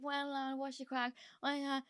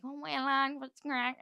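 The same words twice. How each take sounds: First: Lightly voiced, higher greeting, a bit softer; a hint of the rapper's casual hello, held back. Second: Lightly voiced, higher cheery Belfast greeting; a hint of the rapper's friendly hello to each of the lads. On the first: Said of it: "He was like". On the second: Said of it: "he's going around everyone".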